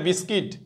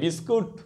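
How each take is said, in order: First: The second syllable sounds like 'kit'. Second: The second syllable sounds like 'koot'. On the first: The speaker calls it right. "কিন্তু বিস্কুট না, এটা বিস্কিট" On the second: The speaker calls it wrong. "বিস্কুট বলে ফেলি"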